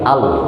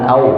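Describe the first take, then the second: First: The lips stay still, giving an 'al' sound. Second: The lips round, giving an 'au' sound. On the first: The speaker calls it right. "tapi al" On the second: The speaker calls it wrong. "bukan au"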